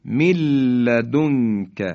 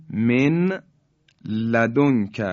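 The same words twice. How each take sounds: First: من لدنک as milladunka with long l; nun dropped. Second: من لدنک with n sounded, then separate l; nun left unmerged. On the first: Tajweed teacher repeating the merge for listeners, held l in من لدنک. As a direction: lean on a doubled l in من لدنک, no n. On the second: Tajweed teacher showing letters before merging, clear n in من لدنک. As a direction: say min, pause, ladunka for من لدنک. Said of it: "یعنی نون ساکن". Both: Shown as a demonstration.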